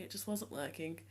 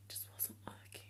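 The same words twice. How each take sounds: First: Said in the usual way. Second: Barely audible voiceless whisper; whispered aside. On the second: Real, not acted. Vlogger admitting the styling failed, whispered. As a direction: whisper it under your breath. Mouthed aside before repeating it aloud.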